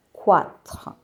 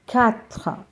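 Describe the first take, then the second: First: "quatre" said wrongly with an English kw sound; wrong pronunciation. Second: "Quatre" as kat, the qu said as a plain k; slow, careful "Quatre" starting with k; correct pronunciation. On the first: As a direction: show the mistake: kwatr for "quatre". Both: Shown as a demonstration. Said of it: "and not".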